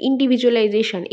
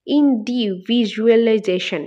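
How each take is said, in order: First: Said in the usual way. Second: ইন্ডিভিজুয়ালাইজেশন drawn out slowly, one syllable at a time. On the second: Shown as a demonstration. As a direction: split ইন্ডিভিজুয়ালাইজেশন into separate slow beats. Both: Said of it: "এইটাকে ভাগ করলে আমরা কয়টা পাই".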